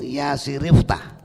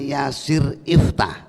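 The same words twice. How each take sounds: First: The two words run together without a stop. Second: A glottal stop separates the two words. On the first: The speaker calls it right. "hamzah wasolnya disimpan, dilempit atau didarji" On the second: The speaker calls it wrong.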